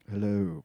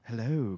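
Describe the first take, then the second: First: The voice is pitched noticeably deeper. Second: The voice is at a moderate pitch. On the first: "Can you get it a little bit deeper?" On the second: "It's pretty good"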